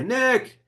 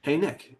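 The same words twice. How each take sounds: First: A sudden high shout down the hallway; screaming his name. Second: Friendly call. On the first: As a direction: yell the name across the office, sharp and high. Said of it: "start screaming down the hallway". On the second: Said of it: "I'm gonna do something like this". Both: Shown as a demonstration.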